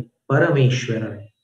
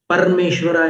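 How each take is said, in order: First: "परमेश्वराय" with each syllable full and a clear final य; careful "परमेश्वराय", ending on य; "परमेश्वराय" said fully, final य sounded; correct pronunciation. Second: "परमेश्वराय" rushed, the final य swallowed; quick sloppy "परमेश्वराय" as the mistake; "परमेश्वराय" said fast with a clipped ending; wrong pronunciation. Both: Shown as a demonstration. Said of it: "परमेश्वराय नहीं".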